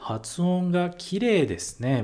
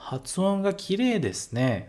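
First: "Hatsuon ga kirei desu ne" spoken slowly, each syllable clear; slow it down so students can follow "Hatsuon ga kirei desu ne"; teacher repeats "Hatsuon ga kirei desu ne" slowly for the class; slow model phrase. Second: Said in the usual way. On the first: Shown as a demonstration. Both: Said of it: "Eles vão falar pra você".

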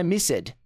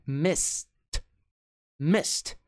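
First: "missed" said as two syllables, miss-ED; wrong two-syllable ending. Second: "missed" as one syllable, ending in a T; correct one-syllable ending. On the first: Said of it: "pronúncia não é missed". ("missed" errado, em duas sílabas: mis-sed) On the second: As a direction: say "missed" like "mist", E silent. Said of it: "é missed". ("missed" numa sílaba só, terminando em T) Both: Shown as a demonstration.

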